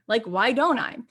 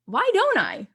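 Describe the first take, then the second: First: Said in the usual way. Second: Much higher and louder, struck by the idea; mock lightbulb moment, voice jumping up; a surprised why don't I, pitched up high; sudden realization. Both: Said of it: "I'm like".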